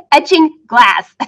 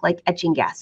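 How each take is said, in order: First: "glass" said slowly and clearly with the l; careful correction "etching glass"; corrected slowly. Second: Says "gas" instead of "glass", quickly and quietly; a slip: "etching gas" dropping the l; misspoken. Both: Real, not acted.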